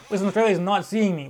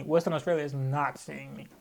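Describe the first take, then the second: First: Loud, lively declaration; emphatic refusal. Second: Low, slow, measured repeat; deadpan refusal. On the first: Ruling out Perth for next event, loud refusal. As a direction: announce it loudly, fresh from laughing. Repeats refusal two ways, laughing first. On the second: Ruling out Perth for next event, slow firm refusal. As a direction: lay it down slowly and low. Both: Real, not acted.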